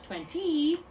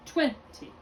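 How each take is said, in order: First: Twenty as twen-TEE, the end high and drawn out; wrongly placed accent. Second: Twenty as TWEN-ty, high first syllable, falling away; Twenty with a light, unstressed ending; accent on first syllable. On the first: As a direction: deliberately stress the last syllable of twenty. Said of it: "It's not twenty". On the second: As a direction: punch the TWEN of Twenty, drop the ty. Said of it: "Figure out where your accent is". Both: Shown as a demonstration.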